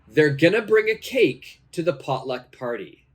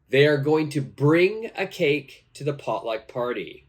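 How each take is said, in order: First: The words are contracted and reduced to gonna. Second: Each word is said fully, without reduction. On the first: "now let's practice pronunciation" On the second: "the correct answer here is"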